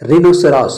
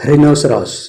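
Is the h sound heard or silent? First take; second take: silent; heard. First: The h sound is not pronounced. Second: The h sound is pronounced. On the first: The speaker calls it right. "ಸೈಲೆಂಟ್" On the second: The speaker calls it wrong.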